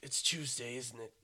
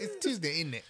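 First: Low, soft Batman voice with a British accent; deep British Batman. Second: Put-on British accent. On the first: Shown as a demonstration. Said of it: "make it deep like Batman". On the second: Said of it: "you have to do a British accent".

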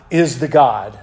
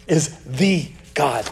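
First: Said in the usual way. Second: "the" said as a drawn-out "thee"; slow, low and softer, weight on "the"; stress on THE. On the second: Real, not acted. Preacher setting up the contest of gods, stress on "the". Restates for emphasis on THE.

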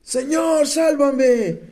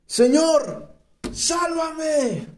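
First: Desperate cry. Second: High, pleading cry for rescue; desperate cry. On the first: Shown as a demonstration. Preacher to congregation, demonstrating Peter's desperate high cry. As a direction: act out the cry so they can imagine it. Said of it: "¿Se imaginan ese grito de desesperación?". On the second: A narrator's reading. Peter sinking, crying out to the Lord in desperation. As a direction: cry out like a sinking man begging to be saved. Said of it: "Entonces gritó".

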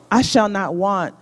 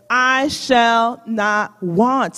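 First: Said in the usual way. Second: Each word of "I shall not want." drawn out slowly; slow, weighty scripture reading; slow recitation. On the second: Shown as a demonstration. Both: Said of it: "Say it with me".

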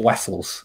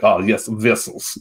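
First: "Vessels" said as "wessels", a W sound for the V; "Vessels" as "wessels", mocking the Russian accent. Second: "vessels" with a strong buzzing V, said slowly; slow "Oh, yes, vessels" with a hard, buzzing V; heavy V sounds. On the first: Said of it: "in what accent is someone going". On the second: Shown as a demonstration. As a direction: lean on the V in "vessels" like a Russian speaker would. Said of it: "really pronounces the V's".

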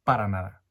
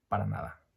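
First: Louder, punched denial; emphatic denial. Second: Said in the usual way. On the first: Real, not acted. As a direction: shut the idea down hard.

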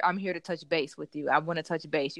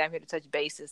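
First: Said in the usual way. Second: "bases" with an extra syllable; wrong "bases". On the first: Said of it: "You can't say". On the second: Shown as a demonstration. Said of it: "supposed to be wrong".

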